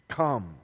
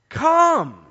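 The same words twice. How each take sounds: First: Said in the usual way. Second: "Come." barked out high and loud as an order; come as a command. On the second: Shown as a demonstration. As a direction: hit "Come." hard like an exclamation point. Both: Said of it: "Come with an exclamation point".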